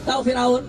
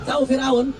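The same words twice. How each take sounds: The two takes are said the same way.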